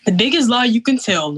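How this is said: It is said in an imitated, put-on voice.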